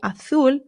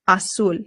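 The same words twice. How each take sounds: First: The z is pronounced like th. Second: The z is pronounced like s. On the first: This is how it is said in Spain. "in Spain, the Z becomes a th sound" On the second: This is how it is said in Latin America. "it doesn't do that in Spanish in Latin America"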